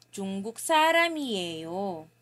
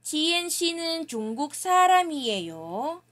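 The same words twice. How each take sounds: First: 사람이에요 falling at the end, lower and fast; falling intonation. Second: 사람이에요 rising at the end, higher, louder, fast; rising question tune. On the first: Teacher modelling the answer, falling intonation. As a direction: state it, tune dropping on 사람이에요. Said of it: "Falling intonation na siya". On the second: Teacher modelling a Korean question, rising tune. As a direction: ask it with the tune climbing on 사람이에요. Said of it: "Dapat ang ating tono ay pataas". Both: Shown as a demonstration.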